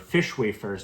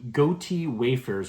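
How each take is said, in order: First: The first word sounds like fish. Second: The first word sounds like goatee. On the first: "depending on how you want to pronounce it" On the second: "depending on how you want to pronounce it"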